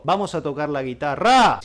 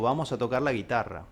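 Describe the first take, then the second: First: The last syllable is hit hard and loud. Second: The last syllable is soft and relaxed. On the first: The speaker calls it wrong. "yo no digo" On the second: The speaker calls it right. "la última sílaba debe ir en reposo"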